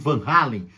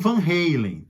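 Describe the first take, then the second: First: The name is pronounced the Dutch way. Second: The name is pronounced the Americanized way. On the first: It keeps the family's original pronunciation. "eu tô falando Van Halen ... é um nome holandês, então a pronúncia é Halen mesmo" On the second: It adapts the name to American usage. "alguns falam Van Halen ... um jeito de americanizar um pouco o nome"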